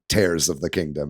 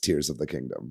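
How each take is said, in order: First: Tears is said to rhyme with cares. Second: Tears is said to rhyme with ears. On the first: Tears means rips, as in tearing something. The speaker calls it wrong. "it wasn't" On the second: Tears means drops that come from the eyes. The speaker calls it right. "it was"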